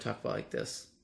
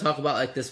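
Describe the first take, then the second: First: The voice is quiet and soft. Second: The voice is much louder. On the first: The speaker calls it wrong. "I actually used to speak that softly" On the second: The speaker calls it right. "increase the volume of your voice by about 100%"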